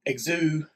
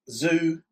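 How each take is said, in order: First: The name begins with a ks sound. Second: The name begins with a plain z sound. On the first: "with a K, K C S kind of sound" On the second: "I'm going to say Zoo"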